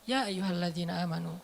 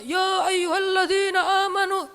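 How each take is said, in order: First: It is said softly and in a relaxed way. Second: It is said loudly, like a shout. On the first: The speaker calls it right. "tapi santai turunnya" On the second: The speaker calls it wrong. "Bukan dengan suara teriak. Kadang kita ... nggak gini"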